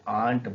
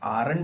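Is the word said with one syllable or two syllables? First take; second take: one syllable; two syllables. First: The word is said with one syllable. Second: The word is said with two syllables. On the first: The speaker calls it right. "आंट बोलते हैं" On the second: The speaker calls it wrong. "उसे आरंट नहीं बोलते"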